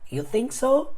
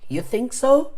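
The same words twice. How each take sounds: First: The voice rises at the end like a question. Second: The voice rises at the end like a question.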